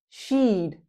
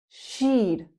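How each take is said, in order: The two takes are said the same way.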